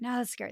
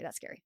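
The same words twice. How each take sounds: First: Said in the usual way. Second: Much softer, almost breathed out; scared hush. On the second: Acted. Skydiver repeating it to herself, much softer. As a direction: drop to a frightened hush.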